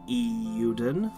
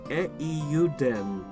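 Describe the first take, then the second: First: The name is said with English pronunciation. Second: The name is said with Japanese pronunciation.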